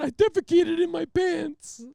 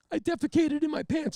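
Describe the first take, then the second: First: High, loud, slow blubbering; hammed-up tearful confession; mock sobbing confession. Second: Laughing confession. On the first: Repeating the confession to the trooper, blubbering. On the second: Retold or imitated.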